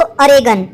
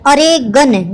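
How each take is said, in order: First: "अरेगन" said as one smooth word; word said whole. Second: "अरे गन" as two separate words, a small gap between; split into two words. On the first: Teacher tells students how to say the word, whole. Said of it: "क्या बोलते हैं इसको?". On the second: Teacher splits the word so students can remember it, two parts. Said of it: "इसकी pronunciation कैसी लग रही है". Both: Shown as a demonstration.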